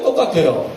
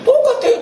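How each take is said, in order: First: Said in the usual way. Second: A sudden leap high on 똑같아요, stressed hard; 똑같아요 cried out very high then falling; emphatic high exclaim. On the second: Real, not acted. Preacher stresses repeated point.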